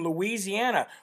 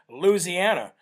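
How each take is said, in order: First: It is said with a standard pronunciation. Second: It is said the way locals say it.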